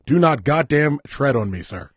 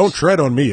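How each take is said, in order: First: Loud, slow mock-patriotic declaration; slow emphatic shout. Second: Loud, high mock-patriotic cry; mock patriotic shout. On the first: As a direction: spell out each word like a proud patriot. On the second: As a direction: bellow it like a flag-waving patriot.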